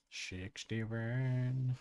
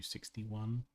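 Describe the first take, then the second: First: SIXTY-ONE with mushy sh sounds, drawn out; silly slurred number. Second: Said in the usual way. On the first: Pretend. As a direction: goof around saying SIXTY-ONE as "shixty-wen".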